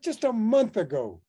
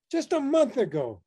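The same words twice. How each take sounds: First: Said in the usual way. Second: "month" hit harder and higher in the repeat; repeated for emphasis. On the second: Retold or imitated. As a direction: repeat it, landing hard on "month".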